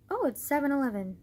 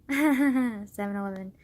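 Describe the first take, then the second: First: Said in the usual way. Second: Laughs, then slowly savors "Seven eleven"; amused at the time, slower with a giggle; giggling repeat. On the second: Real, not acted. Amused vlogger repeating the time, giggling. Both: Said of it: "wow, I'm a child".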